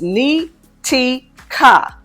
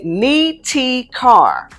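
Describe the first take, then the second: First: The last syllable is a short, weak kuh. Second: The last syllable sounds like the word car. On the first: "Ka sounds like banker without the band" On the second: "where you are literally using the English words ni ti and car"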